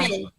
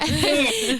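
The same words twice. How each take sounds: First: It is said at normal volume. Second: It is said loudly.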